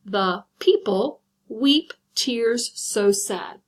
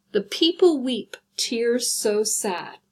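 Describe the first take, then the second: First: Very slow, each syllable separated; checking the syllable count aloud. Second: Slow recited line; first reading before counting; reading a poem line. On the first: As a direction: count out the seven beats slowly. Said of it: "Let's check it". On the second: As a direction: read it out like a poem, tears so sad drawn out. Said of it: "see how I've created". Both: Shown as a demonstration.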